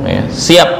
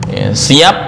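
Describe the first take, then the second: Both takes have the same delivery.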